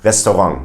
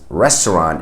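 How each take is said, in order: First: It is French-style with a German accent. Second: It is pronounced the English way. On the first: "a French way ... but they have a German accent" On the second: "which we would pronounce as restaurant in English"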